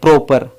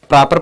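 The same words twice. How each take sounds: First: The first vowel is an 'oh' sound. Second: The first vowel is an 'ah' sound. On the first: The speaker calls it wrong. "न कि" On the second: The speaker calls it right. "यहाँ ओ का sound आ है"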